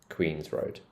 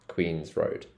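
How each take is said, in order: Both takes have the same delivery.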